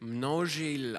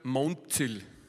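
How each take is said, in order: First: The n directly follows the M with no vowel. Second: A vowel comes between the M and the n. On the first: The speaker calls it right. "eigentlich ist das ein Eigenname aus Tschechien und wird Množil ausgesprochen" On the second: The speaker calls it wrong. "dort sagen sie einfach konsequent seit 30 Jahren Monzil. Das heißt, die verschieben, sie vertauschen einfach zwei Buchstaben"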